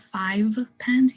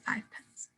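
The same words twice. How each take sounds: First: "five pence" with a full voiced V; unassimilated V. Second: "five pence" softer, as "fife pence"; assimilated V. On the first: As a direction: hold the buzzing V in "five" before "pence". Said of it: "instead of". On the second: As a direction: devoice the V of "five" to F before "pence". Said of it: "you say five pence". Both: Shown as a demonstration.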